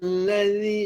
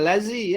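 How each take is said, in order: First: The consonant is a soft 'th' sound. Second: The consonant is a buzzing 'z' sound. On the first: The speaker calls it right. "dia di hujung lidah bunyi dia dengan hujung gigi" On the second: The speaker calls it wrong. "jangan lazi eh. Lazi itu di dalam"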